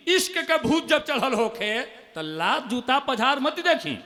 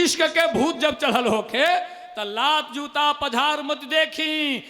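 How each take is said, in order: First: Poem line. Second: Repeated poem line. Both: Acted. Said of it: "मुक्तक".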